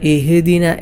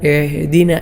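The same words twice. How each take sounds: First: The h has an added bouncing echo. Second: The h is a tight throaty sound. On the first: "ഹ ഇൽ കൽക്കല കൊടുത്തുകൊണ്ടോതും" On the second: "ഐ ഐനൊക്കെ പോലെ"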